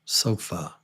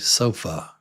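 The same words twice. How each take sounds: First: The final vowel is a reduced schwa. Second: The same.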